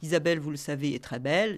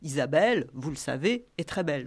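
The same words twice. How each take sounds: First: It is said continuously without any pauses. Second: It is said in three chunks separated by pauses.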